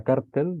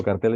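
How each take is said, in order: First: Cártel said as CÁR-tel, stressed on the first syllable. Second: Cartel said as car-TEL, stressed on the last syllable; cartel, stressed at the end. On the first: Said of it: "llevaría acento en la A porque es palabra llana". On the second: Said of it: "cartel es palabra aguda". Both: Shown as a demonstration.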